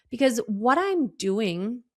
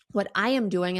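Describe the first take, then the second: First: Said in the usual way. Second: "am" spelled out and leaned on, not contracted; firm emphasis on "am"; stress on am. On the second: Shown as a demonstration. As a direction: hit "am" in "what I am doing".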